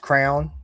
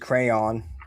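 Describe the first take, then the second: First: The word is said quickly as one syllable. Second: The word is said slowly with two syllables.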